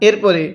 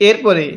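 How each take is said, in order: Both takes have the same delivery.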